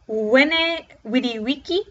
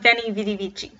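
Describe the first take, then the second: First: It uses the classical Latin pronunciation. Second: It uses the ecclesiastical Latin pronunciation. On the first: The speaker calls it right. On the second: The speaker calls it wrong. "Veni vidi vici would be correct in ecclesiastical, but not in classical"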